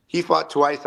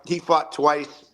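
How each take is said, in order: First: Said in the usual way. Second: Slow, with "fought" drawn out and hit hard; stress on FOUGHT. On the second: Acted. Boasting that the fighter fought twice, "fought" slow and hit. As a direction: land "fought" slowly, like a punchline. Repeating the punchline.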